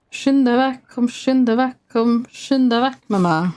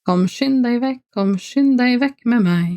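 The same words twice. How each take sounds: First: Sung in a broad Norwegian dialect, pitched higher. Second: Clean standard Norwegian, pitched higher. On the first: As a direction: lilt it in the singer's home Norwegian dialect. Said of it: "that was very much in my dialect". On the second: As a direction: read it in proper book Norwegian. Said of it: "more normal Norwegian would be". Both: Shown as a demonstration.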